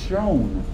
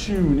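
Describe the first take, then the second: First: The vowel is an 'oh' sound, like own. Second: The vowel is an 'oo' sound, like moon. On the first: "It was always pronounced shown" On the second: "the word shoon was not pronounced shoon"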